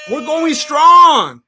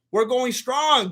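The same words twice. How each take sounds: First: Louder, very slow, higher rally call; hype shout. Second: Said in the usual way. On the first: Real, not acted. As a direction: stretch it out like a cheer. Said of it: "cheering a member shout-out". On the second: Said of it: "repeat after cheer".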